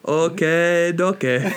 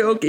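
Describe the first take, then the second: First: Light mock Asian accent on okay, okay; imitating Johnny's oddly accented okay, okay, only lightly. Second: Said in the usual way. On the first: Host imitating Johnny saying okay, light mock Asian accent. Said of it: "like a Chinese person saying it". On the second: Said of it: "he doesn't say okay".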